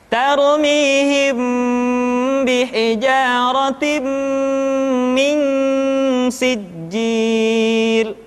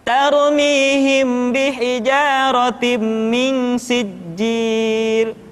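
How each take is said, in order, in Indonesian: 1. Bunyi sengau dibaca panjang dan tidak tergesa-gesa. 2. Bunyi sengau dibaca cepat dan dipotong pendek.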